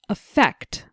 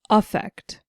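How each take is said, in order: First: The stress is on the second syllable. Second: The stress is on the first syllable.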